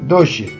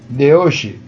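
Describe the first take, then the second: First: The two words merge into one contracted word. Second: The two words are said separately, without contraction. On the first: The speaker calls it right. "hai que leelo como unha contracción" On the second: The speaker calls it wrong. "Non se debe dicir de hoxe"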